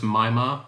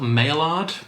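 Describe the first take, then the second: First: It is said with a French pronunciation. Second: It is read out letter by letter, English style. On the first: The speaker calls it right. "but it's pronounced Maillard after a, a French scientist" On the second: The speaker calls it wrong. "It's spelt Maillard"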